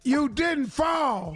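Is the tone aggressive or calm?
aggressive. It is said in an aggressive tone.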